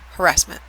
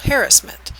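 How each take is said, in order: First: It uses the West Coast pronunciation. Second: It uses the other speakers' pronunciation. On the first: "I'm from the West Coast, so most of us say harassment" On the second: "or as some people pronounce it"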